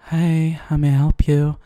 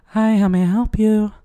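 First: It is said in a sexy voice. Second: It is said in a plain voice.

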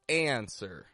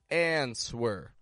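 First: The word is said with no W sound in the middle. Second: The word is said with a W sound in the middle. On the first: The speaker calls it right. "we want to give this more of a sound like answer, without the W" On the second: The speaker calls it wrong. "they'll try to say something like answer"

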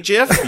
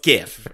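First: The word starts with a soft G sound. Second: The word starts with a hard G sound. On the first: The speaker calls it wrong. "A soft G sound on a word that's spelled G-I-F?" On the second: The speaker calls it right. "it's GIF"

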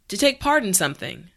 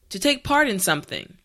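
Both takes have the same delivery.

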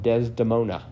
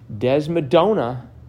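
First: The syllables come in order, Des-de-mo-na. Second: The middle syllables come out swapped, Des-mo-do-na. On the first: The speaker calls it right. "I should say it properly" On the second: The speaker calls it wrong. "I got tripped up on Des"

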